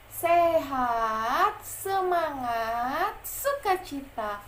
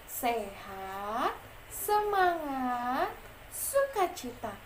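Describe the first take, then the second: First: It is said with much more energy. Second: It is said with little energy.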